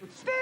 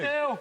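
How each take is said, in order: First: It is said in a high voice. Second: It is said in a low voice.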